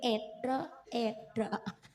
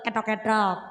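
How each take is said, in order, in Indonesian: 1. Diucapkan dengan gaya yang dibuat-buat. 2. Diucapkan dengan biasa dan jelas. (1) "Mriki etok etok" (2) "nek kula kula etok-etok"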